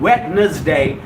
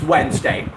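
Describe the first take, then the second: First: The D sound is pronounced in the word. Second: The D sound is left out of the word. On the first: The speaker calls it wrong. "it's not Wednesday" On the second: The speaker calls it right. "how it's silent in Wednesday"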